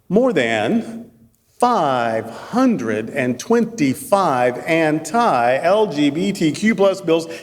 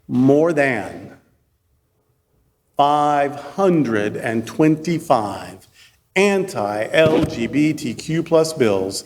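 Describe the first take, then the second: First: The phrase is spoken at a normal, quicker pace. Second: The phrase is spoken at a slow, deliberate pace.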